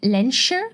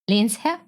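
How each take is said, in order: First: The break falls before the s, Len-sher. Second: The break falls after the s, Lens-herr. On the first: The speaker calls it wrong. "how Americans pronounce it" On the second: The speaker calls it right. "The pause should be between Lens and Herr"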